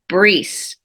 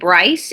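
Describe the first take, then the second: First: The name is said with a French pronunciation. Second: The name is said with an English pronunciation. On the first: This is the original form of the name. "the French spelling of Bryce is B R I C E, and it's actually pronounced Brice" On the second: The family adapted the name to English. "That is the English pronunciation of Bryce"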